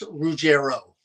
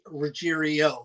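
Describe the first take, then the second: First: No extra 'ee' syllable is heard in the middle. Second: An extra 'ee' syllable is heard in the middle. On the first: The speaker calls it right. "it's Ruggiero" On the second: The speaker calls it wrong. "some people say Ruggiero, which is completely wrong"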